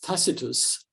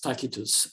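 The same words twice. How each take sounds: First: It uses the common modern pronunciation. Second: It uses a reconstructed ancient Roman pronunciation. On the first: This is how most people say it today. "widely uh, pronounced as Tacitus" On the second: This is how it was said in antiquity. "I believe um, it was Tacitus uh, during the Roman period"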